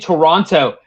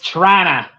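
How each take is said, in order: First: Both t sounds are pronounced, three full syllables. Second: The word is squeezed into two short syllables. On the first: The speaker calls it wrong. "you got me saying Toronto" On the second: The speaker calls it right. "Or if you really want to go, it's Trana"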